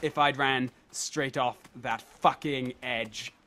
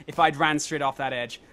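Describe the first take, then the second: First: Slow and low, with FUCKING set apart; measured, word-by-word weight on "fucking edge"; slow emphatic repeat. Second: Said in the usual way. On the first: Real, not acted. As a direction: space out the words, leaning on "fucking".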